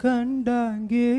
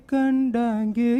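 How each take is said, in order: Both takes have the same delivery.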